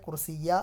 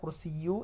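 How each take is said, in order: First: The word ends in the vowel a. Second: The word ends in the vowel u. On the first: "കുർസിയ അല്ല വരിക" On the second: "കുർസിയു എന്നല്ല വരിക"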